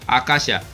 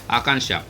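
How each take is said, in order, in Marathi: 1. दुसऱ्या अक्षरात अनुनासिक ध्वनी नाही. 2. दुसऱ्या अक्षरात अनुनासिक ध्वनी आहे. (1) "असा जर आपण शब्द वाचला आकाशा" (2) "वरती टिंब असल्यामुळे आकांक्षा"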